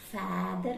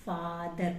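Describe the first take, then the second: First: फैदर with a short flat ae; wrong vowel. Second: फादर with a long open aa; correct father. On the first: Teacher showing the wrong father. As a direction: say फैदर with ae as in cat. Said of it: "फैदर नहीं बोलते". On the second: Teacher giving the right father. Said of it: "फादर बोलते हैं". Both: Shown as a demonstration.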